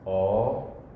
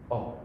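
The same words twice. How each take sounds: First: The vowel is held long. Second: The vowel is cut short. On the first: "O with a macron on it" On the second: "a O without a macron"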